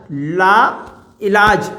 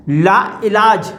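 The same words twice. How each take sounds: First: ला, a clear pause, then इलाज; ला and इलाज said as two separate words; split into parts. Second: Said in the usual way. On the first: Shown as a demonstration. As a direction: break it after ला, teacher-style. Teacher splits word into parts.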